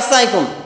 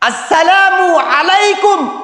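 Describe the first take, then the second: First: The greeting is clipped into one short word. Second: The greeting is said fully as two words. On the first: The speaker calls it wrong. "অনেকে আসসালাইকুম সাইকুম" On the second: The speaker calls it right. "এভাবে সালাম দিতে হবে।"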